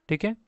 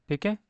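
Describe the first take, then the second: No difference in how they are said.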